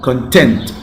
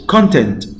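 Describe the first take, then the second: First: The stress is on the second syllable. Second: The stress is on the first syllable. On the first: Happy. "Here the stress on the second syllable" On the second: What is in something. "Here's the stress on the first syllable"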